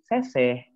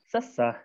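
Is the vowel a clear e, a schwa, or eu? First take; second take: clear e; schwa. First: The vowels are a clear, open e sound. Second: The vowels are a short, strained schwa sound. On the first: "nganggona e anu kahiji mah bakal jadi seseh" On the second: "nganggo e anu kadua jadi seseh"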